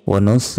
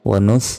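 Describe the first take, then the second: The two takes are said the same way.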